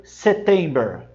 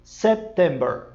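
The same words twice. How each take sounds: First: September with the P dropped; September sem o P; wrong September. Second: September with a brief stop on the P; September com pausa no P; right September. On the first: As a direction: slide past the P in September. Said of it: "você não pode dizer September". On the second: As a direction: brake lightly on the P in September. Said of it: "Você dá brecadinha no P e diz September". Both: Shown as a demonstration.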